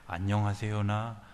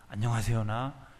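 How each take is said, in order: The two takes are said the same way.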